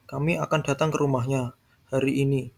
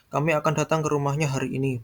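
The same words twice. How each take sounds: First: The stress falls on the words hari ini. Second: The stress falls on the word rumahnya. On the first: It happens today, not tomorrow. "Hari ini, bukan esok" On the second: It is this house, not another house. "bukan datang ke rumah yang lain"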